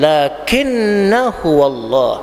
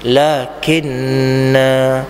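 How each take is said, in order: First: The final vowel is short, running into the next word. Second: The final vowel is held long before a stop. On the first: The reciter continues without stopping. "kalau kita baca sambung, pastikan lakinnahu wallah, pendek" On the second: The reciter stops at this word. "Kalau berhenti, lakinna ... dua harakat"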